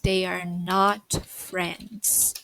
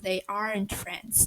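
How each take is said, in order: First: Are and not are said as two full words. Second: Are and not merge into one quick syllable.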